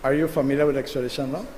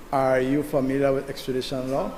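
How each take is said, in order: First: Said in the usual way. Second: Measured repeat of "Are you familiar with extradition law", rising on "law". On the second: Real, not acted. Same question repeated more slowly.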